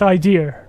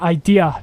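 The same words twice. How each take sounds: First: It is said in a regional dialect pronunciation. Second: It is said in a standard pronunciation. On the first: "the dialect and where I come from, it's pronounced idea" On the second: "if you want me to pronounce the word idea correctly"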